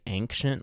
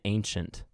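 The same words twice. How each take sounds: First: The first syllable sounds like 'ang'. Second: The first syllable does not sound like 'ang'. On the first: The speaker calls it wrong. "like A, as if it was almost spelled A-N-G, like Ang" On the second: The speaker calls it right. "Which is probably the right way to say it"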